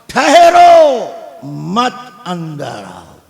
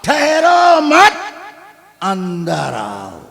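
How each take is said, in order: First: The pause comes right after ठहरो. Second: The pause comes right after मत.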